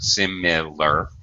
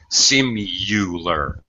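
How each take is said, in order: First: The second syllable has a short I vowel. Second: The second syllable has a U vowel. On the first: "the second I, I'm sorry, is a short I sound" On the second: "some people pronounce it with like a U sound"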